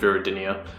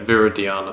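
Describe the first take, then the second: First: The name ends with the sounds 'dinia'. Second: The name ends with the sounds 'diana'. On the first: The speaker calls it wrong. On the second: The speaker calls it right.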